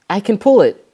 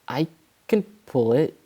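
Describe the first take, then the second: First: It is said more loudly. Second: It is said softly and quietly. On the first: "said Rusty louder" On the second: "Rusty said quietly"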